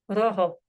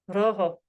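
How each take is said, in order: No difference in how they are said.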